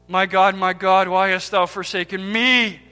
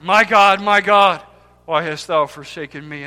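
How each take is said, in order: First: The stress falls on the final word, me. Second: The stress falls on the opening words, my God. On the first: The one forsaken is the Father's own Son. "with the emphasis on the end" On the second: The cry is above all addressed to God. "emphasize the first part"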